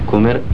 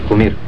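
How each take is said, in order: No difference in how they are said.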